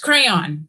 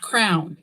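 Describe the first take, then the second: First: Crayon is said with two syllables, non-Kentucky style. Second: Crayon is said like crown, Kentucky style.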